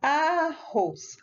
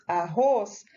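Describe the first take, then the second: First: "Arroz" drawn out in two syllables, A-rroz. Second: Said in the usual way. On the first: Shown as a demonstration. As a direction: open wide on each syllable of "Arroz", higher pitch. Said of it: "contar abrindo a boquinha, falar a palavra". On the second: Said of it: "tem duas sílabas".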